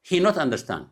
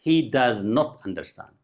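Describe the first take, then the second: First: Said in the usual way. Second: Very slow, careful word-by-word model; teacher's deliberate corrected sentence; slow correction. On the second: Shown as a demonstration. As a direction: draw out "does not" as separate words. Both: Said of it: "ጌጋ".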